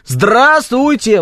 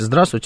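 First: The greeting is shouted loudly. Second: The greeting is said calmly.

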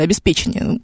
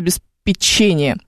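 First: The stress falls on the third syllable. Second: The stress falls on the fourth syllable. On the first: The speaker calls it right. "что оно на самом деле обеспечение" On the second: The speaker calls it wrong. "давайте переустановим программное обеспечение"

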